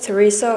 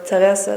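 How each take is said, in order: First: The name is pronounced the English way. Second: The name is pronounced the Norwegian way.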